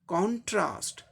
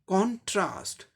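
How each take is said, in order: No difference in how they are said.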